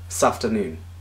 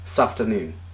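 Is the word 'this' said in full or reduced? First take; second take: reduced; reduced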